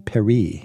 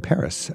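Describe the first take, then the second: First: The word is pronounced the French way. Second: The word is pronounced the English way. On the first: It sounds scholarly and cultured. "I don't say Paris" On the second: It sounds like an ordinary English speaker. "I say Paris. I speak only English"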